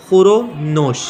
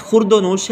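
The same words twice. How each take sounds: First: Khur-o-nosh with no d; khur-o-nosh, the d left out; correct "khur-o-nosh". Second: Khurd-o-nosh with an added d; the mistaken khurd-o-nosh, d included; wrong "khurd-o-nosh". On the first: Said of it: "तो ये लफ्ज़ हमारे पास सही है". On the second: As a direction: put a d after khur in khurd-o-nosh. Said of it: "ये पता नहीं किस अहमक ने". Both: Shown as a demonstration.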